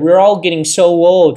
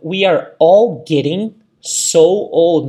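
First: It is said at a faster pace. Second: It is said at a slower pace.

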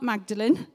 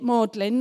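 First: The word is pronounced the way it's spelled. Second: The word is not pronounced the way it's spelled. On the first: The speaker calls it wrong. "not Magdalen. That's how it's spelled" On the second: The speaker calls it right. "That's how you say it"

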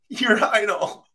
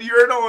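First: The word is said with a British pronunciation. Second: The word is said with an American pronunciation. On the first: The speaker calls it right. "how do you think they pronounce it, Nate, in England?" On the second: The speaker calls it wrong. "And I said urinal, and these guys are looking at me like I'm an idiot"

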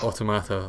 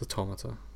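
First: It is pronounced to sound like automatic. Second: It is pronounced to sound like automaton. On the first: The speaker calls it wrong. "Not automata, like automatic" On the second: The speaker calls it right. "It's automata. Like automaton"

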